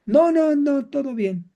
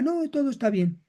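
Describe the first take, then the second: First: Denial. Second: Brief soft brushing-off denial; lightly voiced denial, quieter; denial, softer take. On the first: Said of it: "Volvemos a la negación". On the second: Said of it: "caiga en la negación". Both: Shown as a demonstration.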